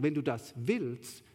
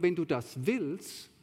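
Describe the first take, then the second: First: Slow, wenn hit hard and falling; stress on wenn. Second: Slow, wenn leaned on with a falling tune; stress on wenn. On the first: Preacher repeats it for his congregation, wenn stressed. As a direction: lean hard on wenn, slowly. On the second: Preacher to his congregation, slow with wenn stressed. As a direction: press the word wenn, slowly. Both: Shown as a demonstration. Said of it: "das ist jetzt meine Betonung".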